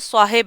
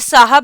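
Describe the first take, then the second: First: The second syllable has an 'i' vowel. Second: The second syllable has an 'a' vowel. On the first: The speaker calls it right. "इसका जो ठीक pronunciation है वो साहिब है" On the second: The speaker calls it wrong. "अब ये साहब नहीं है"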